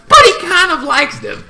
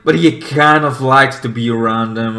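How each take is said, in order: First: High, put-on character voice. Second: Said in the usual way. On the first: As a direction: voice him much higher than yourself. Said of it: "He's like".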